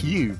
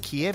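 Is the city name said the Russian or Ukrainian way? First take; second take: Ukrainian; Russian. First: The name is said the Ukrainian way, lips spread. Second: The name is said the Russian way. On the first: The speaker calls it right. "You got to smile when you say Kiev" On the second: The speaker calls it wrong. "Kiev is actually the Russian pronunciation of it"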